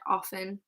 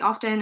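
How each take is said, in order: First: The word is said with a silent T. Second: The word is said with a pronounced T. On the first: This is the traditional way, especially in British English. "Traditionally, we would have said often, especially in British English" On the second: This is the way many people say it now. "many people pronounce the T and they say often"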